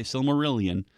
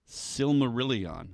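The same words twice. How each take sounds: First: Silmarillion ending like "million"; wrong pronunciation. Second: Silmarillion slow and higher, ending "ee-on"; correct pronunciation. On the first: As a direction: Silmarillion with a short "-yun" ending. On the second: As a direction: stretch Silmarillion out to a clear final "-on". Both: Shown as a demonstration. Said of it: "We don't say Silmarillion".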